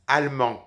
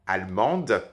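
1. Le son D final est muet. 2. Le son D final est prononcé.

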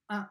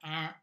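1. La voyelle nasale est facile et relâchée. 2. La voyelle nasale est forcée et exagérée. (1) "Non, juste un, ça va. Relax" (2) "Ce n'est pas la peine de faire un"

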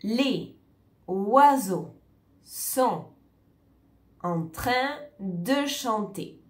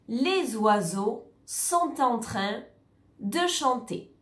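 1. Chaque mot est prononcé séparément, sans liaison. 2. Les mots sont liés entre eux par des liaisons. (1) "On ne va pas dire" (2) "on va prononcer les liaisons ensemble et les blocs de mots ensemble"

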